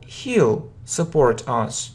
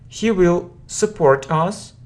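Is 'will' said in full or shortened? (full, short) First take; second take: short; full. First: Will is shortened and joined to the pronoun. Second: Will is said as a full separate word.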